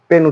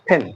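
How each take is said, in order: First: The first sound has no puff of air. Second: The first sound has a strong puff of air. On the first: The speaker calls it wrong. "পেন উচ্চারণ করব না" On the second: The speaker calls it right. "এই ধরনের উচ্চারণ হবে ফেন"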